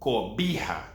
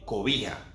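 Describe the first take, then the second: First: The b is a strong sound with closed lips. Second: The b is a weak sound with open lips. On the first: The speaker calls it wrong. "Not cobija" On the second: The speaker calls it right. "Because the letter B is between two vowel sounds"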